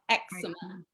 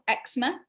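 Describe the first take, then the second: First: The word is said with three syllables. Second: The word is said with two syllables. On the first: This is the American way of saying it. "the guy was American and he called it eczema, which is three syllables" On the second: This is the British way of saying it. "in British English, we say eczema, two syllables"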